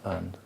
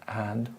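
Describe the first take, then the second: First: The word is shortened, with a weak vowel. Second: The word is said fully, with a clear vowel. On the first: It is the casual form. "Normally in the casual, ... we change to and" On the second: It is the formal form. "with words like and"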